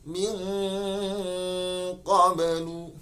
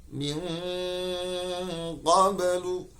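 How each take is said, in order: No difference in how they are said.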